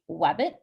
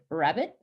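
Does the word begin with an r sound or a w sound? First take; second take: w; r. First: The word begins with a w sound. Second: The word begins with an r sound. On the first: A young child with gliding says it this way. "a child would say" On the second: This is the adult form. "instead of"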